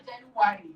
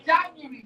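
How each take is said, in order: First: "January" as JEN-u-wa-ree; "January" with a full wa syllable; wrong pronunciation. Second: "January" as JAN-yu-ree; correct pronunciation. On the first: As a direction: show the mistaken, longer "January". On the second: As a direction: compact "January", stressed up front. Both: Shown as a demonstration. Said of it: "not January".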